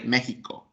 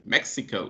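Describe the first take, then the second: First: The word is said with Spanish pronunciation. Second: The word is said with English pronunciation. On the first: This is the official native name. "the official way, Mexico, because in the Spanish language" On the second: This is how English speakers say it. "because of the English pronunciation, Mexico"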